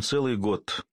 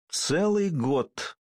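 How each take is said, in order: First: Said in the usual way. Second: "Целый год" high and very drawn out; "целый" lengthened for storytelling effect; dramatic emphasis. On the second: A narrator's reading. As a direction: stretch ЦЕЛЫЙ slowly on a raised pitch.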